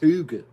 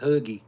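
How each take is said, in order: First: The name ends in an 'uh' sound. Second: The name ends in an 'ee' sound. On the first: The speaker calls it right. "I think it's Huga" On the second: The speaker calls it wrong. "I don't think it's Huggy"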